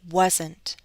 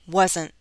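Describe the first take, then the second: First: The final T is fully released. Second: The final T is a glottal stop. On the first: "let me read it first with a true T" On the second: "now I'll use a glottal stop"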